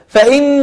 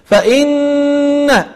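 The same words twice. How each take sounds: First: The doubled n has little or no nasal hold. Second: The doubled n has a held nasal sound. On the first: The speaker calls it wrong. "وليس فإن الجحيم لا يصلح" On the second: The speaker calls it right. "الصحيح أن تقول فإن، تعطي غنة زائدة"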